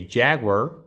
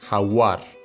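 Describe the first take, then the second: First: It is said with an English pronunciation. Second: It is said with a Spanish pronunciation. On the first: "in English, you would say jaguar" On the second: "In Spanish we have jaguar"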